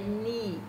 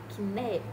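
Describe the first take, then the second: First: The K is silent and the vowel is 'ee'. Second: The K is sounded and the vowel is 'eh'. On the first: The speaker calls it right. "Sem pronunciar o K e dois E tem som de I" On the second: The speaker calls it wrong. "então não é kné, não"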